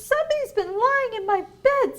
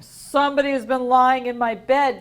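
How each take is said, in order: First: It is said in a medium-sized voice. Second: It is said in a big, deep voice.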